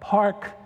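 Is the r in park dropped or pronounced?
pronounced. It is said in a Texan accent with r.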